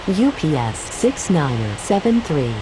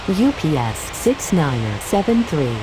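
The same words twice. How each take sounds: The two takes are said the same way.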